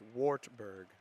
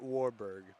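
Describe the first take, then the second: First: The name is said with a t sound. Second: The name is said without a t sound. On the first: The speaker calls it right. "It's Wartburg" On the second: The speaker calls it wrong. "not Warburg ... I mispronounced the title or the the college name"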